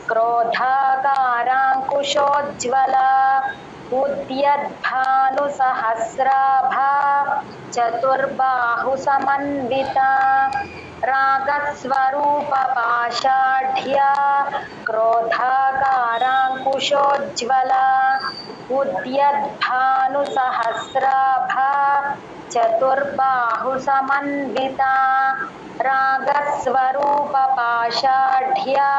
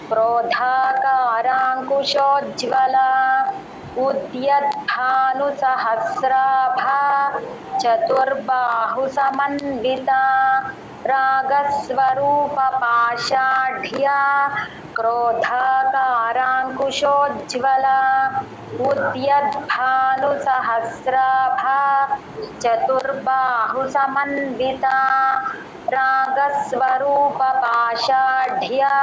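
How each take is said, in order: The two takes are said the same way.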